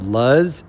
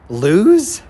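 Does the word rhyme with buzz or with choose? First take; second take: buzz; choose. First: The word rhymes with buzz. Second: The word rhymes with choose. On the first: The speaker calls it wrong. "I thought it was called Luzz, L U Z Z" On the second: The speaker calls it right. "that's how you pronounce it?"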